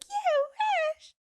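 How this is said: It is said high-pitched and animated.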